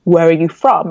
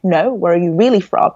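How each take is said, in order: First: Said in the usual way. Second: Retold insistent question with "really" emphasized; stress on REALLY. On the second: Stranger pressing her about her origins, stress on "really". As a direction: lean on "really", stretched with a pitch swoop.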